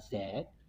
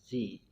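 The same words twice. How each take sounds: First: The letter is said the British way, 'zed'. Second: The letter is said the American way, 'zee'.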